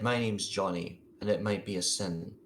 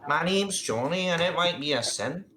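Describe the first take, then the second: First: It is said in a gruff, ordinary adult voice. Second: It is said in a high, childlike voice. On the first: The speaker calls it wrong. "that wasn't a little boy voice" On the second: The speaker calls it right. "I could do a little boy voice"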